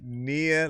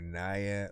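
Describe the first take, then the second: First: The first vowel sounds like 'ee'. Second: The first vowel sounds like 'eye'. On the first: "Nia like Mama Mia" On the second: "Naya like Maya"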